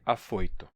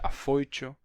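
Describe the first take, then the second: First: The t is a plain t sound. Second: The t sounds like a full ch.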